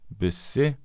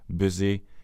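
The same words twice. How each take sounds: First: The s is a hissing sound without voice. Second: The s is a buzzing sound with voice. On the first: The speaker calls it wrong. "bruker gjennomgående den ustemte S-en i ord som" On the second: The speaker calls it right. "uttales med en stemt S"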